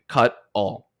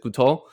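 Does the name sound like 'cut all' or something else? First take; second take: cut all; something else. First: The name sounds like the words 'cut all'. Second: The name does not sound like 'cut all'. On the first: The speaker calls it right. "it was pronounced like cut all" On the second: The speaker calls it wrong. "in my mind pronounced it Kutol"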